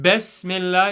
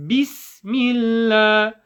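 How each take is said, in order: First: "Bismillah" said as "Besmellah"; passive vowels. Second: "Bismillah" with clear i sounds, slowly chanted; higher, drawn-out "Bismillah" with true ee vowels; active vowels. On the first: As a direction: open e in place of i in "Bismillah". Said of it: "it's not Bismillah". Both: Shown as a demonstration.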